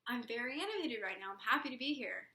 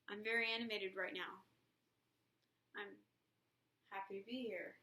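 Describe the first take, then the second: First: It is said in a lively, animated way. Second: It is said in a flat, unanimated way.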